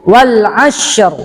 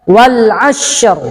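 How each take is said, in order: The two takes are said the same way.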